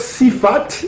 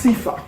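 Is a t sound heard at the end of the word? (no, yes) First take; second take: yes; no. First: The word ends with a pronounced t sound. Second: The word ends on a vowel, no t. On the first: The speaker calls it wrong. "au lieu de dire Sifat" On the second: The speaker calls it right. "ils prononcent Sifa"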